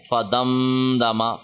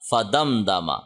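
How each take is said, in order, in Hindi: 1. म को नाक की गूँज के साथ खींचा जाता है। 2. म छोटा रहता है, उसमें नाक की गूँज नहीं होती। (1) "अक्सर लोगों की आदत है वो ऐसी बगैर वजह के गुन्ना किए फिरते हैं। ... ऐसे पढ़ते हैं, ऐसे नहीं करना" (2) "यहाँ पे हमने कोई गुन्ना नहीं करना"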